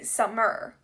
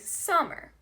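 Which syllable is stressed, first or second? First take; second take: second; first. First: The stress is on the second syllable. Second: The stress is on the first syllable. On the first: The speaker calls it wrong. "you wouldn't say summer" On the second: The speaker calls it right. "you say summer"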